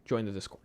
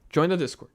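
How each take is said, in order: First: Said in the usual way. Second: Louder, higher repeat. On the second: Shown as a demonstration. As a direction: Join the Discord called out higher and louder.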